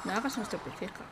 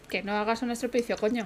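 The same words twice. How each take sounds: First: Calm telling-off. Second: Firm scolding, stress on estropicio, ending with a blunt "coño"; firmer telling-off. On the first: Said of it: "Decir que no haga un estropicio". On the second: Mother disciplining her daughter in the game, firm scolding. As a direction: lean hard on "estropicio", then tack on "coño". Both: Pretend.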